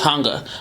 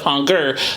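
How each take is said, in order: First: The word ends in a neutral vowel, no r. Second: The final r sound is clearly pronounced. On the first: "the r was taken off. It was hunger" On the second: "Instead of hunger"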